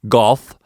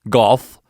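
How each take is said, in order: No difference in how they are said.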